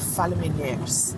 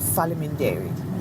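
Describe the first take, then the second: First: The word ends with an 'es' sound. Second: The word ends with an 'it' sound. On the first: This is the local northern Geg form. "we say" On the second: This is the standard southern-based form. "here we don't say"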